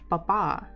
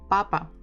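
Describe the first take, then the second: First: The stress is on the second syllable. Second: The stress is on the first syllable. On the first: "if you stress the second one, it will sound papa, more like French uh, manner" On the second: "So the stress is on the first syllable"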